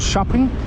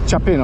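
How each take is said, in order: First: It sounds like the English word shopping. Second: It does not sound like the word shopping. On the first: The speaker calls it wrong. "You may pronounce it Chapin or shopping" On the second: The speaker calls it right. "but it's Chapin"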